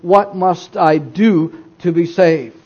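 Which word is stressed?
do. The stress falls on the word do. Salvation depends on performing works. The speaker calls it wrong. "This doesn't seem to be the right place then to put the emphasis"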